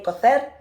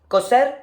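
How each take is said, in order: First: The c is said like 'th', Spain-style. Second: The c is said like 's', Latin American-style.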